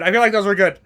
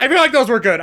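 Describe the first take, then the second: First: Said in the usual way. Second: Laughing. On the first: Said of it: "repeated plainly". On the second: Real, not acted. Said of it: "said laughing then repeated".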